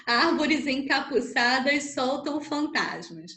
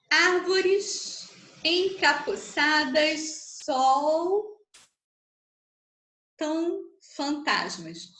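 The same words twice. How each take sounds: First: Said in the usual way. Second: Very slow, drawn-out verse with long pauses; syllable-by-syllable scansion. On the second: Shown as a demonstration. Teacher counting a verse's syllables for students, slowly scanned.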